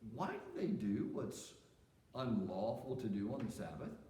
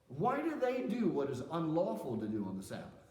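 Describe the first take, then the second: First: It is asked in a curious, information-seeking tone. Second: It is asked in a confrontational, challenging tone. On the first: The asker genuinely wants an answer. "if you were going to ask that question because you really were just seeking information" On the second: The asker is confronting and accusing the listener. "how might you say that if you're actually challenging Jesus?"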